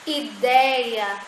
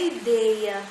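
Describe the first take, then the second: First: The stressed vowel is open. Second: The stressed vowel is closed. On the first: The speaker calls it right. "continuam sendo pronunciadas com esses sons vocálicos abertos" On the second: The speaker calls it wrong. "não é"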